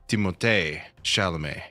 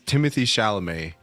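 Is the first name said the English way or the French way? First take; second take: French; English. First: The first name is said in a French way. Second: The first name is said like English Timothy. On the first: This is how the actor himself says it. "I've also heard him say" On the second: This is how most people say it. "everyone says"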